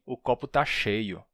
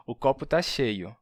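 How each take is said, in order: First: "cheio" com ch chiado normal. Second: "cheio" com s sibilante, "seio"; s alveolar em "cheio". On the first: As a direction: diga "cheio" com o ch de chá. ("cheio" com ch chiado) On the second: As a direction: diga "cheio" com o som de s. ("cheio" pronunciado com s em vez de ch) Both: Shown as a demonstration. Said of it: "São dois sons diferentes".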